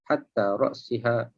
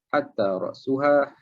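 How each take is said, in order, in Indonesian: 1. Kata kedua memiliki bunyi i setelah s. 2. Kata kedua memiliki bunyi u setelah s. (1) "dengan bawah" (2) "dengan hadapan"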